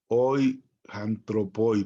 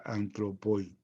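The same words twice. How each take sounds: First: Slow "hoy antropoi" with an h sound before "antropoi"; aspirated breathing. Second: "antropoi" starting straight on the vowel a; unaspirated breathing. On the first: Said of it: "por cómo trae el espíritu". ("antropoi" con hache aspirada, despacio) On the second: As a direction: say "antropoi" with no h sound, softer. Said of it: "Si el espíritu estuviera al revés". ("antropoi" sin aspiración inicial) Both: Shown as a demonstration.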